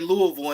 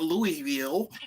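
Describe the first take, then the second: First: It is pronounced the way locals say it. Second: It is pronounced the way outsiders say it. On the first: The speaker is truly from the city. The speaker calls it right. "I'm really from Louisville because I say Louisville" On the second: This marks someone not from the city. The speaker calls it wrong. "and not Louisville"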